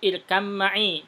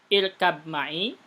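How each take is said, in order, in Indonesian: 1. Bunyi b digabung ke dalam m. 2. Bunyi b dipertahankan sebelum m. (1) "langsung diidghamkan silahkan" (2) "langsung ke ba saja tanpa masukkan ke mim boleh"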